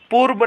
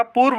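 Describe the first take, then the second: First: पूर्व as "poor-ba"; wrong b sound. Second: पूर्व as "poor-va"; correct v sound. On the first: Teacher showing students the mistake, b substituted. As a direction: end पूर्व on b. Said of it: "नहीं होता". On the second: Teacher giving students the right form, clear v. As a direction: end पूर्व on v. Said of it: "होता है". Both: Shown as a demonstration.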